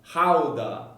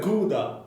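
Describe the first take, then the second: First: It is said the Dutch way. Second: It is said the usual English way. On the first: This is how the locals say it. The speaker calls it right. "That's how you pronounce it" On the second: This is how the speaker always said it. The speaker calls it wrong. "I always said Gouda"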